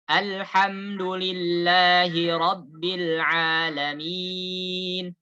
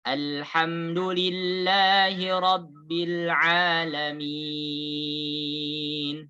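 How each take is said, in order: First: The last long vowel is held four beats. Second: The last long vowel is held six beats.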